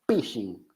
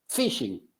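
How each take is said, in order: First: The word starts with a P sound. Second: The word starts with an F sound.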